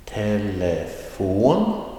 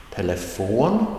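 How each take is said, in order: First: "Telefon" stretched to half pace, climbing on "fon"; very slow teaching demo of "Telefon", rising at the end. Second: "Telefon" at normal pace, rising on "fon"; rising last syllable. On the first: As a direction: draw out "Telefon" syllable by syllable, final "fon" rising. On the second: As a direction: lift the pitch on the final "fon" of "Telefon". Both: Shown as a demonstration. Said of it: "with a rising tone on the last syllable".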